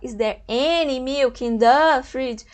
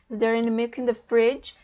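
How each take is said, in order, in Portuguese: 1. As palavras 'in the' recebem ênfase forte. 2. As palavras 'in the' são leves e não acentuadas. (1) "Fica fora, não combina. Você dá importância a essas palavras" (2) "esse in the, in the fica bem sutil na hora de você falar"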